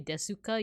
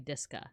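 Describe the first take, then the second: First: The u after the s is fully sounded. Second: The u after the s is dropped. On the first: The speaker calls it wrong. "you wouldn't say desuka" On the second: The speaker calls it right. "you would say deska"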